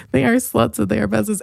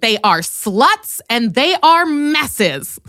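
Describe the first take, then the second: First: Said in the usual way. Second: Slow, drawn-out imitation of hateful delivery; mock hateful. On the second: Imitating the sister saying it with hate. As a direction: drag it out with mock contempt. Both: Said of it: "saying it with such hate in your voice".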